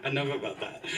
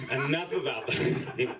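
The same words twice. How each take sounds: First: Said through a laugh. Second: Said in the usual way. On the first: Real, not acted. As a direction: wave the topic off, giggling.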